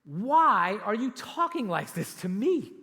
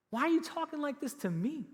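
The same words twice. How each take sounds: First: Slow and louder, stressing why; pleading question. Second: Much higher, rising on you; incredulous question. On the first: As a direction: plead it slowly, bewildered. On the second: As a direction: repeat it in high disbelief. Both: Retold or imitated. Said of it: "And then he says this".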